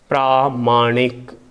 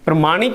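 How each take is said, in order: First: The first vowel is long. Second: The first vowel is short. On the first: The speaker calls it right. "शुद्ध शब्द होता है प्रामाणिक" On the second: The speaker calls it wrong. "प्रमाणिक नहीं होता"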